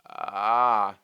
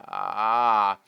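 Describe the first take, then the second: First: The vowel starts with a creaky, crackling fry. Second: The same.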